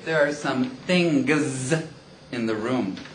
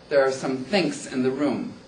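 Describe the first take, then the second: First: The word things ends in a voiced g sound. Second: The word things ends in a voiceless k sound. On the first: The speaker calls it right. "When they should say" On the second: The speaker calls it wrong. "they actually say think because they don't voice it properly"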